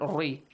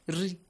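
First: The r sound is heavy and thick. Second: The r sound is light and thin. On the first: The speaker calls it wrong. "Not ri" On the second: The speaker calls it right. "Quickly switch it to a light letter"

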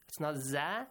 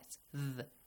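First: The dh sound is followed by an a vowel. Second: The dh sound has no vowel after it. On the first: The speaker calls it wrong. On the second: The speaker calls it right.

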